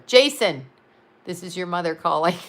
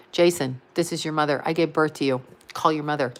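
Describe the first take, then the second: First: Said in the usual way. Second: Low, heavy guilt trip from mom; mother guilting her son Jason into calling, low and heavy; guilt-tripping mother. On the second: Pretend. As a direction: lay the guilt on thick, voice dropped low. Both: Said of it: "How's that for guilt".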